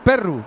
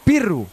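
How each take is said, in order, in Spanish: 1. La primera vocal es una e abierta. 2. La primera vocal es una i cerrada. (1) "como se dice en muchos sitios de Asturias" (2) "decimos pirru. En Lena"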